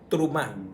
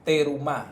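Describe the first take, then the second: First: The first two consonants run together without a vowel. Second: A short vowel separates the first two consonants. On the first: This is how it is said in Hebrew. The speaker calls it right. "pero en hebreo es" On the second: This is how people commonly say it. The speaker calls it wrong. "Hay una parasha que se llama Te Terumá"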